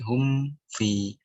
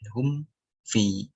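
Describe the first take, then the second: First: The m runs straight into the f. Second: The m is released clearly before the f. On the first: The speaker calls it wrong. "jangan hum fi" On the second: The speaker calls it right. "hum hum lepas baru fi"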